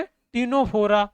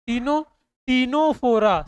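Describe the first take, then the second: First: Ctenophora slow and drawn out, c not said; silent c. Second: Ctenophora said with a silent c, slowly. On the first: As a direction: sound out Ctenophora carefully with no c. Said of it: "तो क्या बोलेंगे?". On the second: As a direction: stretch out Ctenophora, starting on the t sound. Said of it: "सी silent है इसका". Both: Shown as a demonstration.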